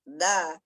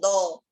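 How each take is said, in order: First: The syllable is thin with a light, front vowel. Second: The syllable is heavy with a rounded, back vowel. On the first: The speaker calls it right. "dan kita tipiskan, kita tetap arahkan tekanan suaranya ke bawah" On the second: The speaker calls it wrong. "enggak boleh kita bilang do"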